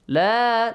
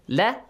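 First: The vowel in la is held long. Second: The vowel in la is cut short. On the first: The speaker calls it right. "long vowel" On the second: The speaker calls it wrong. "short vowel"

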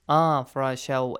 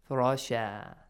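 First: The ending carries a nasal sound into the next word. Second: The ending is a plain long vowel without nasal. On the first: The word is joined to the next word. "If we connect, we have to apply the rule idgham" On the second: The reciter stops after this word. "But if you stop"

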